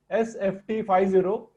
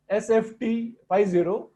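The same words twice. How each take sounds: The two takes are said the same way.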